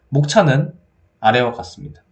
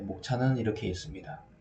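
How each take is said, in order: First: It is said loudly and confidently. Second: It is said quietly and hesitantly.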